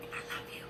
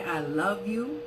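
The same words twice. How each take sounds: First: Soft whisper of I love you; whispered to yourself. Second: Said in the usual way. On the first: Shown as a demonstration. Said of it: "to yourself". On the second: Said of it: "Say, "I love you" to yourself".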